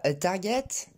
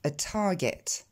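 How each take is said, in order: First: "a target" with unaspirated t and French r; French-accented "a target"; prononciation française. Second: Slow "a target" with a puff after the first t; t aspiré. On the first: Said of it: "On dit pas". (« a target » à la française, sans souffle) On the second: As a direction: explode the t in English "a target". (« a target » avec un t soufflé) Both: Shown as a demonstration.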